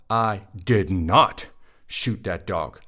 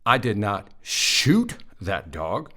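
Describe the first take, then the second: First: The word "not" is stressed. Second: The word "shoot" is stressed. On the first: The speaker firmly denies doing it. "That's a denial. I did not, right?" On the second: Something else was done to the dog instead. "I threw a rock at it, but I didn't shoot it"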